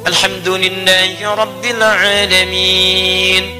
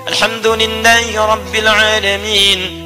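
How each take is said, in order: First: It is recited slowly with a pause after. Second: It is recited quickly, running into the next verse. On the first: The follower has time to recite along. "Anda bisa jedakan dalam setiap ayat. Misal" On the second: It is a quick recitation. "kalau baca hadar misal seperti dalam tarawih"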